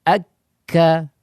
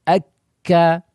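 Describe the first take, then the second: Both takes have the same delivery.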